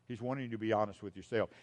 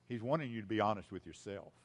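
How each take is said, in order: Both takes have the same delivery.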